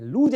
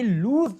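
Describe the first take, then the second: First: लूज said with a j ending like "looj"; the wrong way, लूज ending in j; लूज mispronounced with j; wrong j sound. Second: लूज ending in a hissed s; s sound. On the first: Retold or imitated. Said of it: "लूज नहीं बोलना". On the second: Shown as a demonstration. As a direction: say लूज with a clear s, not z. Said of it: "यहाँ स का उच्चारण आता है".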